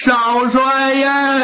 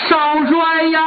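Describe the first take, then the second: First: A slow, hammed-up keening of 少帅呀; drawn-out mock wail. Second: A lightly acted crying cry of the young marshal's title; a servant calling out through mild mock tears; mock wailing call. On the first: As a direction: stretch 少帅呀 slowly into an acted mourning wail. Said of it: "哭得特别痛". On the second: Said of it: "一边跑一边哭".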